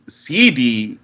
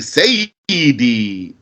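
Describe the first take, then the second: First: The word is shortened to two syllables. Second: The word is said in full with three syllables. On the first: The speaker calls it wrong. "don't say C D" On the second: The speaker calls it right. "say Sayyidi"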